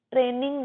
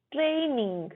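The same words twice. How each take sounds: First: 'ट्रेनिंग' with a short 'tre', no glide; wrong pronunciation. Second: 'ट्रेनिंग' as TRAY-ning, long gliding first vowel; correct pronunciation. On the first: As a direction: say 'ट्रेनिंग' as TREN-ing, the mistaken way. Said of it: "ट्रेनिंग नहीं". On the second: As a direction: glide from e to i in 'ट्रेनिंग'. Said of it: "ट्रेनिंग नहीं, ट्रेई". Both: Shown as a demonstration.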